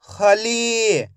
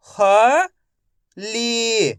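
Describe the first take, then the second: First: खली joined without a pause; खली as one word with a long final ee; blended word. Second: खली split as ख, pause, ली; syllable by syllable. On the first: Teacher blending खली for young readers, joined up. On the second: Teacher sounding out खली for young readers, syllable by syllable. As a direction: sound out खली in two pieces, first rising. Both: Shown as a demonstration. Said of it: "तो मिलके बन जाएगा".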